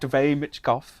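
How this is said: The name is said in a British accent. "I said it in a British accent"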